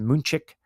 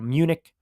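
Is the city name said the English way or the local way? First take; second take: local; English. First: The name is said with local German-like sounds. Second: The name is said with the usual English sounds.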